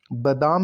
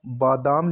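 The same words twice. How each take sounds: First: बादाम as "ba-daam", short first a; wrong pronunciation. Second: बादाम as "baa-daam"; long first aa in बादाम; correct pronunciation. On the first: Teacher showing the error, बादाम as "ba-daam". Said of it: "नहीं होता". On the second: Teacher correcting the word, बादाम as "baa-daam". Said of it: "लिखा जाता है". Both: Shown as a demonstration.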